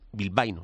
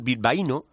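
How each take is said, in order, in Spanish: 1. Las 'a' e 'i' están unidas; acento en 'bai'. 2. Las 'a' e 'i' están separadas; acento en la 'i'. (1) "hay que decir bilbaíno" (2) "no se pone el acento del bilbaíno, eso es una pijotada"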